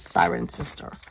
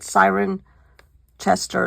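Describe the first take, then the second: First: The name ends sounding like 'sister'. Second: The name ends sounding like 'chester'. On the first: The speaker calls it right. "but it's Siren Sister" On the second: The speaker calls it wrong. "is what it looks like"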